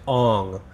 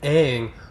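First: The name is said the way the film says it. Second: The name is said the way the cartoon says it. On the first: This is the pronunciation the film called proper. "the proper pronunciation is Aang" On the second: This is how the animated show says the name. "in the show his name is pronounced Aang"

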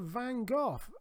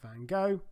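First: Van Gogh is said with a British pronunciation. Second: Van Gogh is said with an American pronunciation.

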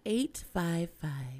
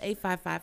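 First: It is said slowly. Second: It is said at normal speed.

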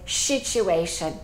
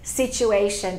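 First: The word begins with an 'sh' sound. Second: The word begins with an 's' sound. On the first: This is how a Japanese speaker says it. "they say situation" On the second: This is the standard English pronunciation. "instead of saying situation"

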